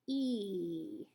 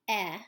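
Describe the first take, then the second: First: The vowel sound is held out longer. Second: The vowel sound is short and clipped. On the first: "E is longer" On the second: "when I say eh is short"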